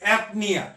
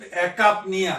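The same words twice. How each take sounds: First: एपनिया with a silent c, ep-ni-ya; the right way, एपनिया as ep-ni-ya; correct pronunciation. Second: एकापनिया read as written, with the k sound, e-kap-ni-ya; the mistaken letter-by-letter reading एकापनिया; wrong pronunciation. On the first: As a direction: say एपनिया dropping the k sound entirely. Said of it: "pronunciation क्या होगा?". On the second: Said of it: "इसका pronunciation है नहीं". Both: Shown as a demonstration.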